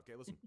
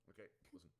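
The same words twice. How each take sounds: First: Said in the usual way. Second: Quiet. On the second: Shown as a demonstration.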